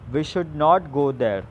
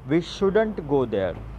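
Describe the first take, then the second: First: The words 'should not' are said in full. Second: The words 'should not' are contracted to 'shouldn't'. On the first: "For example" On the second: "you can say"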